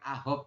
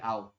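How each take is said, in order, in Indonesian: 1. Bunyi h jelas diucapkan. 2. Bunyi h sama sekali dihilangkan. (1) "Bukan ahop" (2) "tapi au"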